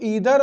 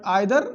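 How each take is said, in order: First: The first vowel sounds like 'ee'. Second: The first vowel sounds like 'eye'. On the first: "कई बार इसको ईदर और इसको नीदर पढ़ते हैं कुछ लोग" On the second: "but आइदर नाइदर दोनों सही है"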